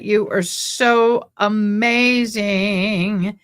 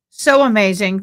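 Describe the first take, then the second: First: "so" stretched long and slow; drawn-out praise. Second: Said in the usual way. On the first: Real, not acted. Host gushes thanks to the super chat donor, "so" drawn out slowly. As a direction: linger on "so" to gush over the donor.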